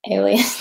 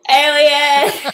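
First: It is said quietly and casually. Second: It is said loudly and forcefully.

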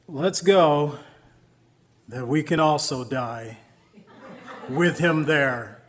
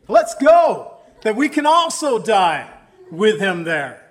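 First: It sounds gloomy and resigned. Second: It sounds hopeful and eager.

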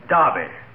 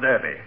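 First: The word is said with an English pronunciation. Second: The word is said with an American pronunciation.

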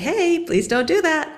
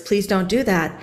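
First: It sounds calm and relaxed, without charge. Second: It sounds tense and charged with held-in anger.

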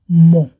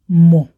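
First: The word has its stand-alone pronunciation. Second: The word has its stand-alone pronunciation.

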